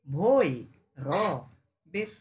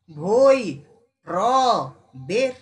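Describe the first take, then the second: First: Said in the usual way. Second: ভৈ called loud, then র, বের; loud syllable split. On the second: Shown as a demonstration. Teacher dividing ভৈরবের for the class. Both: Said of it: "বুঝতে পারছিস?".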